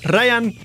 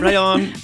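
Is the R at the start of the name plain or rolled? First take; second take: rolled; plain. First: The name starts with a rolled R. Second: The name starts with a plain English R. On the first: This is how someone else says the name. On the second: This is how the name's owner says it.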